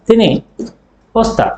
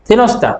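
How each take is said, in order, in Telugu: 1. ఈ రెండు పదాలను విడివిడిగా పలుకుతారు. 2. ఈ రెండు పదాలు ఒకటిగా కలిసిపోతాయి.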